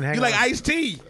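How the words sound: It is said in a confident, assured way. The speaker calls it right.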